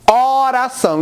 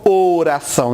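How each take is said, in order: First: Oração starting on an open "ó". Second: Oração starting on a closed "ô". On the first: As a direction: say oração as "óração", northeastern way. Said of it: "o som aberto". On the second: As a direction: say oração as "ôração", the rejected version. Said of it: "e não oração". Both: Shown as a demonstration.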